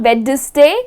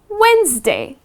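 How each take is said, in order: First: A D sound is pronounced in the middle. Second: No D sound is pronounced in the middle. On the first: The speaker calls it wrong. "it's not Wednesday" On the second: The speaker calls it right. "It is Wednesday"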